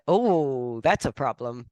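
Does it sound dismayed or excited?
excited. It sounds excited and positive.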